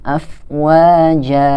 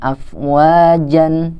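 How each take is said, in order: First: The word ends with a long a vowel. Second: The word ends with a short a and n. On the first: The speaker calls it right. "tapi afwaja" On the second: The speaker calls it wrong. "jadi bacanya bukan afwajan"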